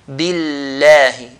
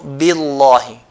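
First: The L is pronounced light and thin. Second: The L is pronounced heavy and full. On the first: The speaker calls it right. "then we're going to pronounce it lightly" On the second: The speaker calls it wrong. "and not billahi"

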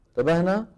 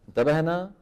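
Both takes have the same delivery.

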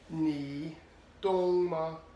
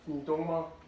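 First: The phrase is spoken slowly and deliberately. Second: The phrase is spoken at normal conversational speed. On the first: "I'll read it slow first" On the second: "and then regular speed"

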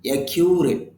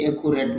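First: The k is followed by a 'you' sound. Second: The k is followed directly by an oo sound. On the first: The speaker calls it right. "এখানে এ কিউ ইউ sound আছে" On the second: The speaker calls it wrong. "অনেকে একুরেট বলেন"

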